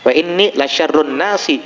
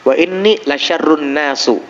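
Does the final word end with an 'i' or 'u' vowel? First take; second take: i; u. First: The final word ends with an 'i' vowel. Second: The final word ends with an 'u' vowel. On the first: The word is read in the genitive case. "mestinya kata dia la syarrun nasi, bukan nasu" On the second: The word is read in the nominative case. "kalimat yang dibaca oleh syekh itu keliru"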